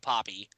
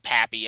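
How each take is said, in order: First: The name is said with a Latin-style vowel. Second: The name is said with an American-style vowel. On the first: The speaker calls it right. "I know it's Big Poppy" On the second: The speaker calls it wrong. "It is pretty inexcusable though to say Pappy"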